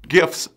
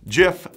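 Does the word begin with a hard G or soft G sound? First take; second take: hard G; soft G. First: It begins with a hard g sound. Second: It begins with a soft j sound. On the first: It names the looping video files. "said with a hard G" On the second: It names the peanut butter brand. "said with a soft G"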